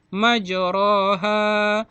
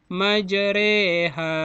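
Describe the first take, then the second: First: The vowel after r is a plain 'a'. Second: The vowel after r leans toward 'e'. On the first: This is how the word is written. "Kalimatnya bertuliskan majroha" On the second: This is how the word is actually recited. "dibaca majreha"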